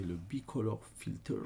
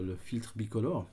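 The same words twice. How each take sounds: First: "Bicolor Filters" said as English words in a French accent; English name with French accent. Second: "filtre bicolore" said as plain French, "bicolore" as bi-co-lore; French name instead. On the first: Real, not acted. Apologising to viewers for his accent, says the English name. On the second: Shown as a demonstration. After fumbling the English, tutor repeats the name in French. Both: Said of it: "désolé de mon accent".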